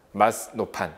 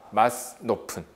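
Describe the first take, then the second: Both takes have the same delivery.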